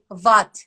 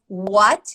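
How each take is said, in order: First: The opening w sound is replaced, Turkish style. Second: The opening w sound is said normally. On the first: "they will say what" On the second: "instead of what"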